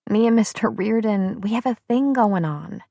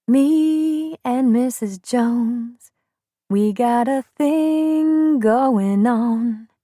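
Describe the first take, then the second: First: Said in the usual way. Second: Slow crooned song line, half sung. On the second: Retold or imitated. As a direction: croon it slowly like an old soul song. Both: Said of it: "Remember that song".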